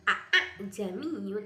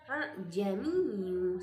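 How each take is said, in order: First: Both glottal stops are fully and clearly pronounced. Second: The second glottal stop is softened and blurred. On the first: The speaker calls it wrong. "bukan a a jamiyu" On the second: The speaker calls it right. "tapi a jamiyu"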